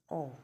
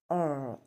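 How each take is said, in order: First: The vowel is short and slightly closed. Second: The vowel is long and fully open. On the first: "the short sound where you have it as" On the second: "in this long vowel sound"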